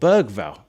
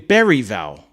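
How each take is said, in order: First: The G sound in the name is pronounced. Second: The G sound in the name is silent. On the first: The speaker calls it right. "He's called Bergval. It's not a silent G" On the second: The speaker calls it wrong. "The commentator called him Berryval"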